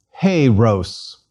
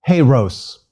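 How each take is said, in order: First: Slow, drawn-out "Hey, Rose"; slower demonstration. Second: "Hey, Rose" at a quicker pace; faster. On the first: Teacher modelling hero in Greek for students to repeat, slowly. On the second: Teacher repeating hero in Greek for students, faster. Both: Shown as a demonstration. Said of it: "And faster".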